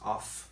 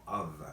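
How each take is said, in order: First: The word ends with an F sound. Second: The word ends with a V sound. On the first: The speaker calls it wrong. "no es off" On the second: The speaker calls it right. "sino of, con V"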